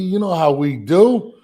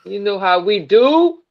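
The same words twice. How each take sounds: First: Put-on playful New York accent take. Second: Put-on weak, wobbly New York accent; bad New York accent. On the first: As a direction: say it like a New Yorker. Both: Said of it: "that was a bad New York accent".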